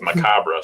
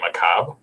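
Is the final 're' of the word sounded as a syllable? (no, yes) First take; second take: yes; no. First: The ending 're' is sounded as a syllable. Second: The ending 're' is not sounded as a syllable. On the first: The speaker calls it wrong. "I thought it was macabre storytelling" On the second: The speaker calls it right. "you don't pronounce the R E"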